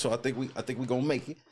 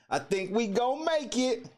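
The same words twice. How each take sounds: First: Said in the usual way. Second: Sung out much higher, playful; a bright, lifted hopeful chant; excited. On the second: Shown as a demonstration. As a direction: repeat it like a hopeful little chant. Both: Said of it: "repeats it in a different voice".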